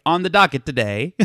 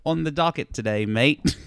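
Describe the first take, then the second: First: Higher satirical news-host delivery; lightly voiced topical comedy host; comedy-show host. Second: Bad Australian accent. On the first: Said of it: "like, their John Oliver Daily Show". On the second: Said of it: "Some, like, poor Australian".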